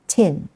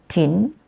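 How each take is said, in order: First: "tin" with an English puffed t; English plosive. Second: "tin" with a softened Malaysian t; Malaysian pronunciation. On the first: Teacher shows how we say tin, English plosive. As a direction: start "tin" with a clear aspirated English t. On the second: Teacher shows what Malaysian says, Malaysian pronunciation. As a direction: say "tin" Malaysian style, little puff on the t. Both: Shown as a demonstration. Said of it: "what Malaysian says".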